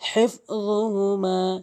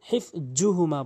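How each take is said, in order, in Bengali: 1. বর্ণটি জিহ্বার আগা দাঁতে ঠেকিয়ে উচ্চারিত হয়। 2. এটি সাধারণ z উচ্চারণ। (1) "জিহ্বার আগা দাঁতের আগা" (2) "অধিকাংশ লোক হিফযুহুমা বলে"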